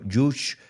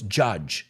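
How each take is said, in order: First: The word ends with a soft 's' sound. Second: The word ends with a 'j' sound. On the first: The speaker calls it wrong. "I've heard people mispronounce it. I've heard people say juice" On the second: The speaker calls it right. "So it's judge"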